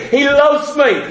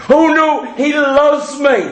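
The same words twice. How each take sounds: First: Said in the usual way. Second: "loves" leaned on, slowed and drawn out; insistent stress. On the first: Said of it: "Well, sure, we all know that". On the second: Shown as a demonstration. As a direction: press "loves" hard, you really mean it. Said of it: "Yeah, yeah, I know".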